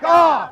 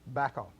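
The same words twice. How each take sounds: First: It is said loudly. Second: It is said at a normal volume.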